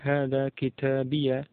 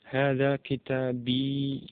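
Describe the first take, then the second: First: The last word ends in an added ya. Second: The last word ends in a long i. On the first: "dengan ya mutakalim yang fathah" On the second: "Di situ ya mutakalim sukun"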